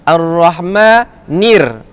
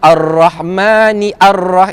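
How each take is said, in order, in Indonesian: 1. 'ar' disambung dengan lancar ke kata sebelumnya. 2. 'ar' dibaca terpisah dengan vokalnya sendiri. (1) "so kita terus masuk sebelah" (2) "Kita tak baca Ar-Rahmani ar-Rah"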